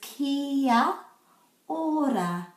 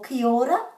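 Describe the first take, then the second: First: Each vowel is said with a break after it. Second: The a of kia is left out entirely. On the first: "we put a break after every vowel. So this is kia ora" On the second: "most people say ki ora or ki ora, but can you see what they're missing out there? Yes, the letter A"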